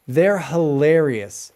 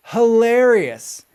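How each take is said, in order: First: Said in the usual way. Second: Hilarious drawn out slowly, higher and louder; stress on Hilarious. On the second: Shown as a demonstration. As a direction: lean hard into Hilarious, slow and emphatic.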